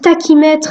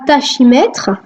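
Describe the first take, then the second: First: The ch is said as a k sound. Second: The ch is said as a sh sound. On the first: The speaker calls it right. "prononcent tachymètre ... malgré qu'il y ait C H" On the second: The speaker calls it wrong. "et non pas tachymètre"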